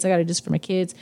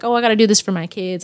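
First: Softer mock repeat. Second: Mock excuse. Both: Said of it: "they say, like".

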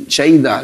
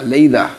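First: Lleida with an Argentine "sh" at the start; Argentine pronunciation. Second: Lleida starting with a simple L; second attempt. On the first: Guest trying a Catalan town's name, Argentine sh sound. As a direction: say Lleida as "SHEY-da". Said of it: "Argentinísimo". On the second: Guest correcting himself on the town's name, plain L sound. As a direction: say Lleida as "LAY-da". Self-corrects after Argentine sh. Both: Real, not acted.

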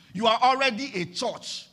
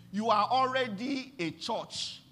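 First: Louder repeat. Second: Said in the usual way. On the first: Shown as a demonstration. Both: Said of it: "Do you understand that now?".

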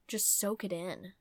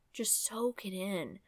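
First: Said in the usual way. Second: "Just soak it in." whispered softly and slowly; whispered repeat. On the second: Shown as a demonstration. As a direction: hush it, drawn out, to the listener.

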